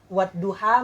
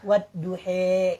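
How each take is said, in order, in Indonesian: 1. Vokal akhir adalah bunyi a terbuka. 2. Vokal akhir condong ke bunyi e.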